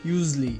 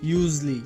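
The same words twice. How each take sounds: First: The middle syllables are squeezed together. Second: The same.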